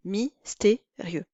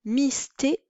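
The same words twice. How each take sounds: First: Mystérieux said slowly as mys-té-rieux; everyday mystérieux, rieux in one beat; three syllables. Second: Mystérieux split as mys-té-ri-eux; mystérieux in four syllables; diaeresis. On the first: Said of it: "dans la vie quotidienne, se prononce en trois syllabes". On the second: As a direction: stretch rieux into two syllables. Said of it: "quatre syllabes". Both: Shown as a demonstration.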